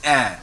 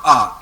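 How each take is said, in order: First: A as an open "eh"; correct è vowel. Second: A as a loud "ah"; wrong vowel. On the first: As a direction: say A like the start of "air". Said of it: "Not A". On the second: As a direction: say A as "ah", the sound to avoid. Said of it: "it is A". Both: Shown as a demonstration.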